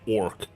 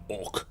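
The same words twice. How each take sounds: First: The R sound is clearly pronounced. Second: The R sound is barely pronounced. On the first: This is how a Swede would say it. "I would say orc with the R" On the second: This is how Americans would say it. "But Americans would say orc. ... Would not say the R"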